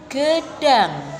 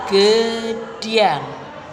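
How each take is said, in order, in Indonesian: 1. Bunyi d langsung masuk ke vokal. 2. Ada bunyi y meluncur setelah d.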